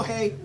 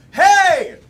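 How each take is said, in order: First: Said in the usual way. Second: Loud, high cue yell. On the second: Shown as a demonstration. Host practising the game cue with the audience, loud yell. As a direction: yell it out to set off the crowd. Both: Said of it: "I'm gonna yell".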